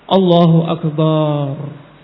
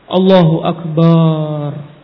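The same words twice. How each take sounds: First: The vowels are stretched out very long. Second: The vowels are stretched out very long.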